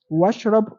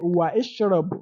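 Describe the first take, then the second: First: The vowel after wa is dropped and linked. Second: A glottal stop and i follow wa. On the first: The speaker calls it right. "you can just say washrab" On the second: The speaker calls it wrong. "You don't say wa ishrab"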